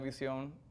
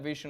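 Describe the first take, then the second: First: The word is pronounced with Spanish sounds. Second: The word is pronounced with English sounds.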